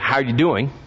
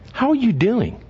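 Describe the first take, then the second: First: It is asked casually, as a passing greeting. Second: It is asked earnestly, with deep personal concern.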